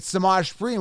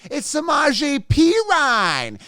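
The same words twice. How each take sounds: First: "Samaj Perine" said suh-MAHZH peh-REEN, as it is spelled; "Samaj Perine" the way it reads; how it sounds. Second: "Samaje Perine" drawn out slow and high, suh-MAHZH-ay peh-RYNE; corrected pronunciation. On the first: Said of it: "which is how it sounds". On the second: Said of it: "that's not how you pronounce his name". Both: Shown as a demonstration.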